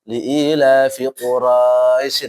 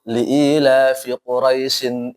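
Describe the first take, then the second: First: The diphthong in Quraisy is drawn out long. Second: The diphthong in Quraisy is kept short. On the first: The speaker calls it wrong. "Jangan sampai dibaca" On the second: The speaker calls it right. "ini kan kalau terlanjut nih, maka biasa dia. Tidak ada matnya"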